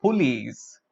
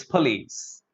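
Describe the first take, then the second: First: "police" as poo-leez; full oo vowel in "police"; wrong pronunciation. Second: "police" with a weak first vowel, puh-leez; correct pronunciation. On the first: Teacher showing students the common police mistake. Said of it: "pronounce this word as". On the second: Teacher giving students the right police. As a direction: reduce the first syllable of "police". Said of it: "It's police". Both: Shown as a demonstration.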